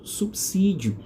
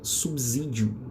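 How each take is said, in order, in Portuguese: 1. A consoante do meio soa como um s. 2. A consoante do meio soa como um z. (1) "vamos fazer a leitura do S aí para a gente estar sempre falando corretamente" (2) "Força aí o S com som de Z"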